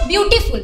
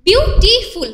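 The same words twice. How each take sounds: First: Said in the usual way. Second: বিউটিফুল split into three separate syllables. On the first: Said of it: "দেখো, আমরা এখানে পাচ্ছি বিউটিফুল". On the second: Shown as a demonstration. Teacher counting out syllables for students, বিউটিফুল said syllable by syllable. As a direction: say বিউটিফুল in three parts, a small break after each syllable. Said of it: "অর্থাৎ আমরা তিনটি syllable পাচ্ছি".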